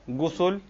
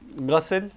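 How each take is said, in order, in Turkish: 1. İlk ünlü yuvarlak u sesidir. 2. İlk ünlü açık a sesidir. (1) "gayin harfinin üzerinde ya damme oluyor" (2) "ya fetha oluyor"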